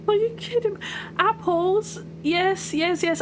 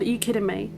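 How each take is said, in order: First: Real delight at finally finding it; excited shriek. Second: Said in the usual way. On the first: Real, not acted. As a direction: shriek it out in disbelief. Sees apples on her map.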